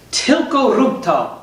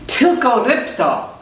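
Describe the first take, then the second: First: "rób to" with an oo vowel, slowly; Polish phrase demonstration. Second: "rób to" slipped into "rip-toh"; mispronounced Polish. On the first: Shown as a demonstration. Teacher shows the Polish for just do it, "rób" said slowly as "roop". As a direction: say "Tylko rób to" slowly, "rób" rhyming with loop. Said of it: "the way you say, "Just do it," in Polish".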